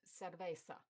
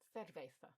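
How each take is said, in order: First: The middle consonant is an s sound. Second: The middle consonant is a th sound. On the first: It marks South American Spanish. "the s sound" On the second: It marks European Spanish. "the th"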